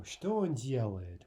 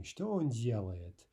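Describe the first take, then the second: First: Said in the usual way. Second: Что он делает said slowly, each word clearly apart; slow, careful repeat. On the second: Shown as a demonstration. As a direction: repeat the question slowly for learners. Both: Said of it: "Okay, first row".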